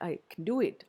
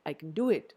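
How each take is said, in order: No difference in how they are said.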